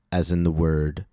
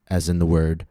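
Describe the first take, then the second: No difference in how they are said.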